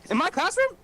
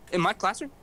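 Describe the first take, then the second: First: Much higher, louder shriek of disbelief; shocked teacher. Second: A hint of a stunned teacher asking; surprised teacher. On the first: Retold or imitated. Teacher shrieks at the student who phoned the superintendent. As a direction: squeal it like an outraged teacher. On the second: Teacher asks the student, mildly surprised. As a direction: raise it a little, in disbelief. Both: Teacher learns of call in class.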